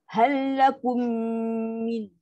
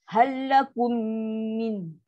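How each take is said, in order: The two takes are said the same way.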